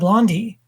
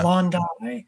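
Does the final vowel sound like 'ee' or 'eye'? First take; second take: ee; eye. First: The final vowel sounds like 'ee'. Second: The final vowel sounds like 'eye'. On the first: The speaker calls it wrong. "I was saying like" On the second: The speaker calls it right. "If there's an I at the end, it's a hard I"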